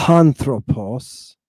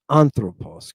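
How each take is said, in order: First: "anthropos" drawn out very slowly as the wrong version; slow demo of the wrong "anthropos"; wrong take, slow. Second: "anthropos" at normal speed with a falling end; quick corrected "anthropos"; correct take. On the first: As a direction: say "anthropos" slowly, as the form it is not. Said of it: "It's not". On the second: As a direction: say "anthropos" briskly, as the right form. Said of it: "It's anthropos". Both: Shown as a demonstration.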